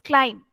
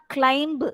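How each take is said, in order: First: The final b sound is silent. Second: The final b sound is pronounced. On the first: The speaker calls it right. "B should not be pronounced" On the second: The speaker calls it wrong. "it's not climb"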